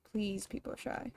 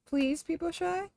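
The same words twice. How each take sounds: First: Much softer and lower, nearly under the breath; soft repeat. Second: Said in the usual way. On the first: Shown as a demonstration. Streamer repeating her plea to the characters in a soft hushed voice. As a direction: drop it to a hush the second time.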